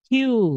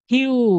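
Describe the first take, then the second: No difference in how they are said.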